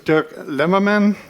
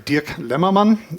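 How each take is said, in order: First: The name is said with English sounds. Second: The name is said with German sounds.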